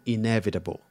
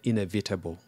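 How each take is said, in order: First: It is said with an American accent. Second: It is said with a Nigerian accent. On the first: The speaker calls it right. "And then they spell it, oh" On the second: The speaker calls it wrong. "typical Nigerian"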